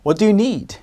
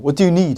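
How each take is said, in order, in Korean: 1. 이 질문은 친근하고 도움이 되게 들려요. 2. 이 질문은 퉁명스럽고 무뚝뚝하게 들려요. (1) "이렇게 가져갈 수 있겠고요" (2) "말투를 좀 조심해요. ... 이러면 뭐 필요한데? 이런 느낌이고"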